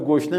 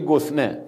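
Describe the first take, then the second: First: The middle consonant is an sh sound. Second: The middle consonant is an s sound. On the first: This is the standard form. "به گشنه" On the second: This is the regional dialect form. "میگه گسنه"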